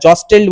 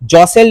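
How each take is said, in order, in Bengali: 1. মাঝের 't' উচ্চারিত হয়। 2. মাঝের 't' নীরব। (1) "জস্টেল বলবে না" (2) "টিটার উচ্চারণ করবে না"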